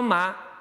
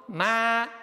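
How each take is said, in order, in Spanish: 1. Es suave, sin tono fijo. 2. Se dice con un tono ascendente. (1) "ese ma es para preguntar ... sin tono definido" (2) "segundo tono ... como ma hacia arriba"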